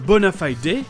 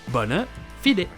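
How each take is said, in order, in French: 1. Elle est prononcée avec une prononciation britannique. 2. Elle est prononcée avec une prononciation de style latin. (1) "Quant au Royaume-Uni, on a un bona fide qui pourrait être considéré un peu plus classe" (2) "si vous voulez vous la péter avec le latin, ça sera la version bona fide"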